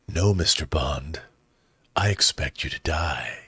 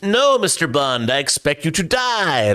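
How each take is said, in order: First: It is said in a put-on villain character voice. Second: It is read in an ordinary speaking voice.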